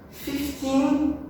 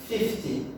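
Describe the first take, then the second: First: "Fifteen" held high through a long final syllable; fif-TEEN, end-stressed. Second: "fifty" soft and falling after the first syllable; FIF-ty, front-stressed. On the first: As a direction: keep the "teen" of "Fifteen" up and full. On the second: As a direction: lean on the start of "fifty", drop the rest. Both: Shown as a demonstration. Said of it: "a stressed syllable, a mesma coisa".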